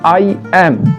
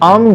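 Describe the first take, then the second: First: It is said as two separate full words. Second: It is said quickly as one contracted syllable. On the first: "ব্যাকরণে তখন আমরা বলি" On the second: "খুব smoothly, খুব দ্রুত আম বলতে পারি"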